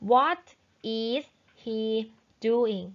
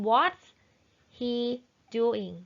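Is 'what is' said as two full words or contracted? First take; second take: full; contracted. First: 'What is' is said as two full words. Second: 'What is' is contracted to 'what's'. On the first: "นักเรียนต้องรู้ว่ามันคือ" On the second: "เราก็จะอ่านเป็น"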